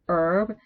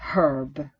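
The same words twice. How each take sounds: First: The word starts without an h sound. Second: The word starts with an h sound. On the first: This is the American form. "in herb the H is not pronounced" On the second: This is the British form. "Because you pronounce that H"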